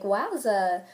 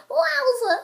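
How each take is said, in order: First: Said in the usual way. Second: Very high, loud wowza; meme way. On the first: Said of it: "different ways you can say this". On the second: Shown as a demonstration. Trying to be cool, high meme voice. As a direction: shoot it up into a squeal. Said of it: "like, in the meme way".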